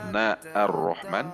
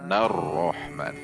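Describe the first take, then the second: First: A separate 'a' vowel is voiced before 'r-Rahman'. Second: The words link with no vowel before 'r-Rahman'. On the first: The speaker calls it wrong. "Tidak dibaca na ar-Rahman" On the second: The speaker calls it right. "tetapi nar-Rahman. Alifnya tidak dibaca"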